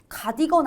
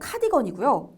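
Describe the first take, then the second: First: The word starts with a plain consonant. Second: The word starts with an aspirated consonant. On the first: The speaker calls it wrong. "가디건 아니고" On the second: The speaker calls it right.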